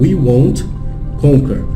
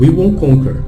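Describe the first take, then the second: First: The T in "won't" is clearly pronounced. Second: The T in "won't" is almost silent. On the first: "Você pode pronunciar" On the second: "na pegada natural, ... Ele fica quase imperceptível"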